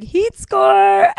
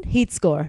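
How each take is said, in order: First: Mock slang. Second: Dropped low, dry verdict; low dry heat score; deadpan catchphrase. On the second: Shown as a demonstration. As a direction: say it flatly, unimpressed. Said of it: "so it's essentially like".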